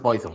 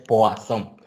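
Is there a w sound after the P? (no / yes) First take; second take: no; yes. First: It starts with a plain 'poy' sound, no w. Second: It starts with a 'pwa' sound, with a w. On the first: The speaker calls it wrong. "no es Poisson" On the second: The speaker calls it right. "es Poisson ... como si tuvieras este, una W por allá"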